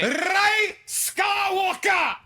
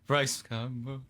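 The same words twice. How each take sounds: First: It is said at a loud volume. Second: It is said at a quiet volume.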